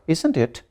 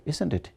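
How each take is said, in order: First: "isn't it?" pitched up as a real question; "isn't it?" higher, unsure of the answer; rising question tag. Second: "isn't it?" dropping softly at the end; "isn't it?" falling and quieter, sure of the answer; falling question tag. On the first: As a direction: lift the voice on "isn't it?". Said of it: "my voice is going up". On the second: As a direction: let the voice go down on "isn't it?". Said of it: "here the voice is going down". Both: Shown as a demonstration.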